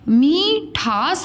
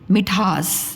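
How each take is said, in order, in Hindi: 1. पहले अक्षर का स्वर दीर्घ है। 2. पहले अक्षर का स्वर ह्रस्व है। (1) "मीठास हम बोलते हैं कि मिठास बोलते हैं" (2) "ये देखो मिठास"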